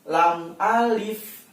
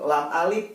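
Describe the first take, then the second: First: The last sound of 'alif' is an f. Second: The last sound of 'alif' is a v or p. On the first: The speaker calls it right. "pakai F" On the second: The speaker calls it wrong. "bukannya V atau P"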